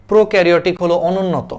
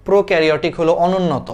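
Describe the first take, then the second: No difference in how they are said.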